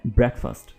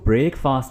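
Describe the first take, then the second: First: It is said as one single word. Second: It is said as two separate words. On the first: The speaker calls it right. "बल्कि ये है breakfast" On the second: The speaker calls it wrong. "इसको breakfast नहीं बोलेंगे, यानी ये दो अलहदा अलहदा लफ्ज़ नहीं है"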